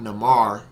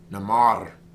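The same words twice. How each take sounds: First: The R is not rolled. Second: The R is rolled. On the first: The speaker calls it wrong. "it's pronounced as not namar" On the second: The speaker calls it right. "because you roll the R"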